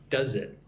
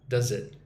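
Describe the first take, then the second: No difference in how they are said.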